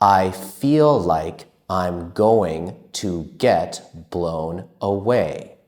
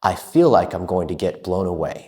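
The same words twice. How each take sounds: First: It is spoken at a slow, careful pace. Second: It is spoken at a fast, fluent pace.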